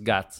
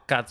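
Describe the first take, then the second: First: The consonants are voiced. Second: The consonants are voiceless.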